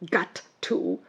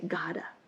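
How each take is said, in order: First: Two separate words with clear T sounds. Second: One smooth word with a soft D sound. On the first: The speaker calls it wrong. "Instead of saying got to" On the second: The speaker calls it right. "the two words become one word"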